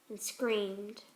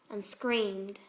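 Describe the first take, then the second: No difference in how they are said.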